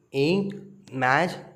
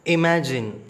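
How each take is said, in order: First: Imagine spoken slowly as i-ma-gine; syllable by syllable. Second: Said in the usual way. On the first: Shown as a demonstration. Teacher sounding out syllables for children, slowly. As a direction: break imagine into three slow parts. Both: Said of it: "three syllables".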